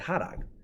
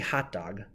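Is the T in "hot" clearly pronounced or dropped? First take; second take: dropped; pronounced. First: The T is dropped, in Northeastern PA style. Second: The T in hot is clearly pronounced.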